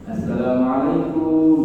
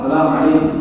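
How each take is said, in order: First: It is said with a typical Indonesian regional accent. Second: It is said firmly, the way Arabs say it.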